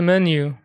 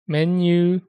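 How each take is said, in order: First: The final vowel is short, English style. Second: The final vowel is drawn out, Japanese style.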